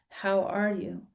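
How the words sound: It is asked sincerely, as a real question.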